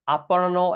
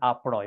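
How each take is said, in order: First: The word is said in its full, longer form. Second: The word is said in a shortened, faster form.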